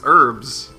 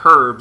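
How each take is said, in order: First: The word begins with a vowel, no h sound. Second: The word begins with a clear h sound. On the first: This is the American way of saying it. The speaker calls it right. "we don't pronounce the H in herbs" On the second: This is the British way of saying it. The speaker calls it wrong. "It's not herbs"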